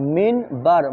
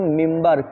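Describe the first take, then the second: First: An n sound comes before the b. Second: An m sound comes before the b. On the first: The speaker calls it wrong. "क्या लिखेला है" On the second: The speaker calls it right. "मगर पढ़ेंगे इसको मिम्बर"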